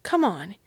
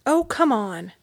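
First: Said in the usual way. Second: Louder, pushier oh come on; mild impatient urging of a sick boy. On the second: A narrator's reading. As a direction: press him, losing patience. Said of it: "Ralph was growing more impatient".

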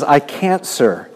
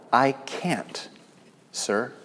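First: A forceful cry of I can't; emphatic admission. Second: Softly conceding defeat; hushed, humble I can't, sir; a small voice giving up; quiet admission. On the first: Lame man's reply repeated. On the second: Lame man's humble reply. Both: Acted.

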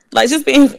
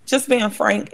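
First: Suddenly much higher, half-laughing start; the voice leaps up as the laugh begins; voice jumps up. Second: Soft, much quieter laugh through the words; laughing softly. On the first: Candid admission breaks into laugh. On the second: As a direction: laugh it off while confessing. Laughs while admitting it was hard. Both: Real, not acted.

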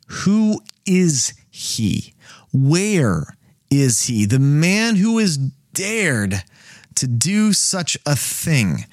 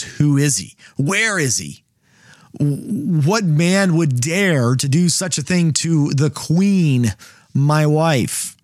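First: Measured, deliberate storyteller's king; slow dramatic reading. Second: A hammed-up angry king, slow and pressing on "man"; king furious at whoever threatened his queen. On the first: Acted. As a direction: draw out each question like a stunned king. Reading the king's question aloud. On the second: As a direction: demand it like an enraged husband. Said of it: "And the king is furious".

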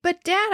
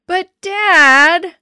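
First: Higher-pitched appeal at normal volume; reasoning plea. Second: High, loud, drawn-out whine; whining. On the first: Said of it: "I reasoned". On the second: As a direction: whine at dad like a thwarted kid. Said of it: "I whined". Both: A narrator's reading.

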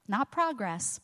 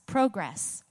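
First: "progress" said PRAH-gress, stress on the first syllable; "progress" as the noun, first syllable stressed and open AH. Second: "progress." said pro-GRESS, long O, stress on the second syllable; "progress." as the verb, weight on GRESS. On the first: Preacher tells the congregation it is PRAH-gress, the noun. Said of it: "Because progress is a noun". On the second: Preacher tells the congregation it is pro-GRESS, the verb. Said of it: "but progress is a verb". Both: Shown as a demonstration.

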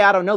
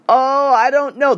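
First: Said in the usual way. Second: Unsure hedging. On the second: Shown as a demonstration. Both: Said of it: "the moment you say".

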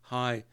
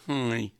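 First: Said in the usual way. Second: Higher, louder impediment "hi"; mock speech-impediment greeting; harelip greeting. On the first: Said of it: "and I said". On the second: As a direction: imitate her cleft-lip hello. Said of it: "talking like that".

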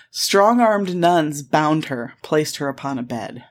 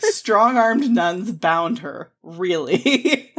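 First: Slow, weighty quoted reading; deliberate quote reading. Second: Mock incredulous. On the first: Retold or imitated. Podcaster quoting a lurid article to her co-host, slowly and deliberately. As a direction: linger over each word of the quote. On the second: Podcaster calling out a suggestive article, mock incredulous. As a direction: draw it out, scandalised and amused.

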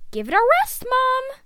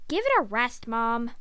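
First: Put-on loud, high teenage protest; exasperated. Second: Said in the usual way. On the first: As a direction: whine it loudly at mom. Retake, son exasperated with mother.

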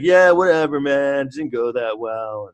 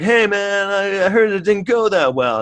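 First: Mock dismissive. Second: Mock precinct colleague. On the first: Cop shrugs off the botched chase, mock dismissive. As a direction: brush it off, dragging out the end. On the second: Precinct cops greet Eddie after the chase, hammed-up high voice. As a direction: pitch it up like a hammed-up cop.

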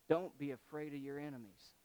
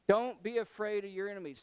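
First: Said in the usual way. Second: Louder, higher, quicker exhortation; emphatic repeat. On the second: Acted. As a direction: drive it home with preaching force.

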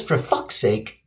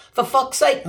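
First: Said in the usual way. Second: Higher-pitched mock Australian accent; Aussie accent. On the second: Example sentence read out in a mock Aussie accent. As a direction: exclaim it in a put-on Aussie accent. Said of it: "must be Aussie".

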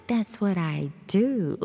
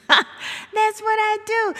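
First: Said in the usual way. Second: Higher, louder and slower, leaning on what; host sells her catchphrase to listeners, punchy and slow; emphatic catchphrase. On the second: Shown as a demonstration. Repeats catchphrase with more punch.

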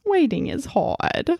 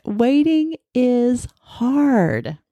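First: Put-on higher, softer little kid voice; sweet cartoon child line; cute little kid voice. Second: "Waiting is hard" said slowly, stressing "waiting"; slow emphatic statement. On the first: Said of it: "in his cute little kid voice". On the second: Shown as a demonstration. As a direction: lean on "waiting", drag the line out slowly. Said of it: "And that's the truth, isn't it?".

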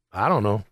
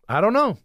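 First: Low resigned mutter. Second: Said in the usual way. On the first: Real, not acted. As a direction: mumble it low to yourself.

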